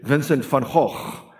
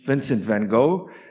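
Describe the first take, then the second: First: The name is said the Dutch way. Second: The name is said the English way.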